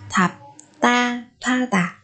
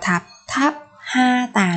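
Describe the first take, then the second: First: The h merges into a p sound, pa. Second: The h sound is kept after the second syllable. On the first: The speaker calls it right. "mới là đúng" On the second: The speaker calls it wrong. "nữa các bạn nhé"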